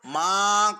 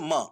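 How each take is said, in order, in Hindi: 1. स्वर को लंबा खींचा गया है। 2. स्वर को छोटा रखा गया है। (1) "इसको माँ करके खींचना भी नहीं है" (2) "बल्कि म"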